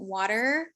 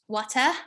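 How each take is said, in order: First: It is said in an American accent. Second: It is said in a British accent. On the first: "like an American water" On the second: "like a British um"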